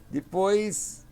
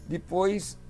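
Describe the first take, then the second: No difference in how they are said.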